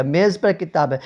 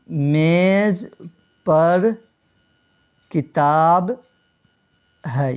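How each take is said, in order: First: Said in the usual way. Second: Example sentence with long pauses between میز, پر and کتاب; word-by-word dictation. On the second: Shown as a demonstration. Teacher setting out an example for students, word by word. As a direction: say میز, پر, کتاب one at a time, widely spaced.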